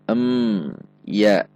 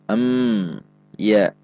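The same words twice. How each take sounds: Both takes have the same delivery.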